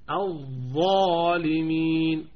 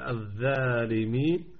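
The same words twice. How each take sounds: First: The first sound is heavy, with the tongue raised. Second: The first sound is light, with the tongue not raised. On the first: The speaker calls it right. "فالاستعلاء يرتفع وسط اللسان فنقول الظالمين" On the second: The speaker calls it wrong. "لا نقول الظالمين لا"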